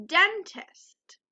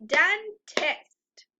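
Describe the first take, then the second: First: Said in the usual way. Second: Dentist clapped as den, tist, two beats; clapped syllables. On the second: Shown as a demonstration. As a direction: clap out Dentist in two parts. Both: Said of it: "Let's clap it".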